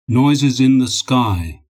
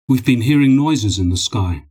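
First: "Noises in the sky" drawn out slowly; emphatic repeat. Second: Said in the usual way. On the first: A narrator's reading. Ivanov correcting Dmitri's guess, emphatic repeat of "Noises in the sky". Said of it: "Ivanov repeated".

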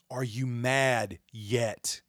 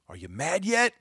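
First: Slow, deliberate question; slow, pointed repeat of the question; slow challenge. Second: Higher, pushed question; sharp rhetorical jab at viewers; raised challenge. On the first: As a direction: stretch each word out. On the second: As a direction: fling the question upward. Repeated challenge, high take. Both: Real, not acted.

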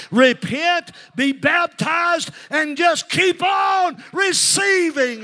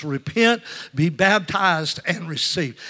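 First: High, stretched revival holler; full-force preaching shout. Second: Loud "Repent", long "baptized", falling "receive"; emphatic preaching refrain. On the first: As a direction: shout each step louder for those not hearing. Shouted climax after asking if they hear. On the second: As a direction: hammer out the three steps, settling at the end. Repeats the slogan for the congregation. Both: Real, not acted.

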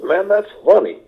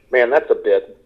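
First: Higher, admiring verdict on a crafted joke; appreciative fan's take. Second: Spot the joke in something awful and chuckle; chuckling comedian's take. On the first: Audience member admiring a joke, raised and impressed. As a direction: sound like a fan impressed by a good joke. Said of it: "an appreciation of humor is when". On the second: Comedian seeing a bit in horror, chuckling. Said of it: "I say comedians have a sense of humor". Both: Shown as a demonstration.

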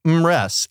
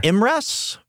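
First: Imress settled with a falling tune, "IM-ress."; confirmed pronunciation. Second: Imress tried as a rising question, "IM-ress?"; questioning pronunciation. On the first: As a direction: state the name Imress with certainty. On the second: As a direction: test the name Imress uncertainly. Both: Shown as a demonstration. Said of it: "not sure how to pronounce it".

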